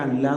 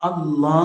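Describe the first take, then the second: First: The L is said thin and light. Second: The L is said thick and heavy. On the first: The speaker calls it wrong. "ശരിക്കും അല്ല എന്ന് തന്നെയല്ലേ എപ്പോഴും പറയേണ്ടത്?" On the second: The speaker calls it right. "കനപ്പിച്ച ഗാംഭീര്യത്തോടെ ഉച്ചരിക്കണമാണ്"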